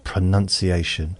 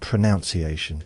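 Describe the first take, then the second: First: The second syllable sounds like 'nun'. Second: The second syllable sounds like 'noun'. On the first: "it's spelt that way" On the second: "it's about how we pronounce. Why not pronunciation? That would make more sense to me"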